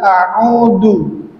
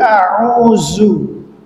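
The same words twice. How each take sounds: First: The middle consonant sounds like a plain d. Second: The middle consonant sounds like a buzzing z. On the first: "ketika lidahnya tidak dikeluarkan maka keluar huruf dal" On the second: "ketika lidahnya kita turunin ke bawah dia jadi a'udzu"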